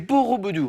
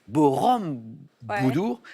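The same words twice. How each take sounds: First: The word has no added M sound. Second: The word contains an added M sound. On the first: The speaker calls it right. "C'est Borobudur" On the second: The speaker calls it wrong. "vous m'avez rajouté une petite consonne... Il y a un petit M"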